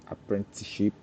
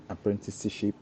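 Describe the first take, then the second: No difference in how they are said.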